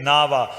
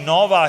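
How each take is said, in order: First: The first vowel sounds like 'a'. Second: The first vowel sounds like 'o'. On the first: The speaker calls it right. "we say Nava. That is the Shuddh part" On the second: The speaker calls it wrong. "We don't say Nova here when we read Gurbani"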